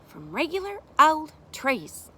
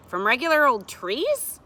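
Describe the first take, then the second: First: Slow echo, "trees" falling at the end; confirming tune. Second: Louder "trees" rising high in disbelief; questioning tune. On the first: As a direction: answer deliberately, settling down on "trees". Adult echoes question as answer. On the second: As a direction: ask "trees" with an upward swing. Child asks in disbelief. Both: A narrator's reading.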